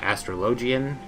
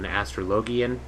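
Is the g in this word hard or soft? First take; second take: soft; hard. First: The g is said soft, like j. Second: The g is said hard, like in go. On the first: "which is what I usually end up saying because that's how I read it" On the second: "made a joke out of it and was calling it an astrologian because it's a G"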